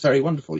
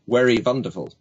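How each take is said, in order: First: The word 'wonderful' begins with a W sound. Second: The word 'wonderful' begins with a V sound. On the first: The speaker calls it right. "It's very wonderful. You can do both sounds" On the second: The speaker calls it wrong. "he replaced his W's with V's. So he'd say it was very wonderful"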